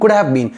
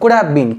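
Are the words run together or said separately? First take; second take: together; together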